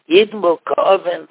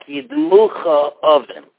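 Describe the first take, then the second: First: The consonant is a hard k sound. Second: The consonant is a soft ch sound. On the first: The speaker calls it right. "Akof the Gusha" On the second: The speaker calls it wrong. "Or else it could sound like Yidmucha Oven"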